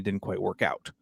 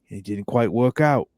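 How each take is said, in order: First: It is spoken in a plain American accent. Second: It is spoken in an Australian accent.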